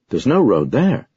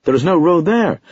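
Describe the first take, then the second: First: "There's no road there" slowed, lifted high on "no"; excited cry. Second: "There is no road there" much higher and louder, falling hard on "there"; emphatic outburst. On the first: Narrator protesting to sergeant about the map, excited cry. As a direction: insist on "There's no road there", drawn out and eager. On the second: Narrator insisting to sergeant he is no fool, loud emphatic cry. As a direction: shout "There is no road there" with rising exasperation. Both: A narrator's reading. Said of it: "I cried excitedly".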